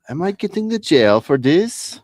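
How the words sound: It is said in a Borat impression.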